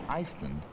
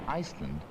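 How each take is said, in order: No difference in how they are said.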